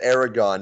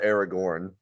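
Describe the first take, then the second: First: The name ends without an r sound. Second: The name ends with an r sound. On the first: The speaker calls it wrong. "You said you said Aragon" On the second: The speaker calls it right. "not Aragorn"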